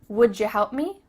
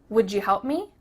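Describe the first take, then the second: Both takes have the same delivery.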